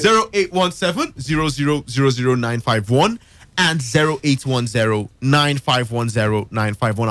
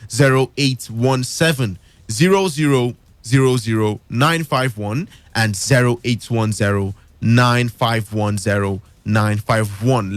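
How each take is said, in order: First: The number is read at a faster pace. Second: The number is read at a slower pace.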